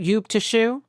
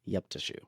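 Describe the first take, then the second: First: "Yoop Tashu" with a questioning rise; checking pronunciation. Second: "Yup Tashu" said quietly with a short "Yup"; offered pronunciation. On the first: Host unsure how to say "Yoop Tashu". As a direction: ask if "Yoop Tashu" is right, rising at the end. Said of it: "am I pronouncing that right". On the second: Cohost quietly correcting the host's "Yoop Tashu". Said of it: "I wanna say". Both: Real, not acted.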